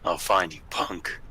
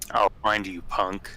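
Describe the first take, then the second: First: It sounds tough and menacing. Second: It sounds weak and unthreatening.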